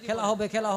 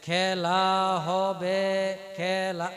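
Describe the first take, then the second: First: The words are rushed out very quickly. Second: The words are slow and drawn out. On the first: "খুব speed যদি বলে" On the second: "এমন যে টেনে টেনে বলা হয়"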